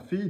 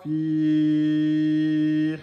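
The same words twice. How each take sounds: First: The vowel is held for two counts. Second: The vowel is held for four counts. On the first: The speaker calls it right. "fi, deux temps" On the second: The speaker calls it wrong. "Ne faites pas quatre temps, hein. C'est pas fi"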